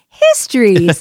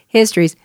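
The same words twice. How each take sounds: First: It is said in an excited, lively tone. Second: It is said in a stern, serious tone.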